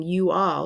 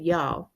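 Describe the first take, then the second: First: Said in the usual way. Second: "y'all" run into one syllable; contracted Southern "y'all". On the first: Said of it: "Instead of saying you all". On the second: Shown as a demonstration. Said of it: "she said y'all".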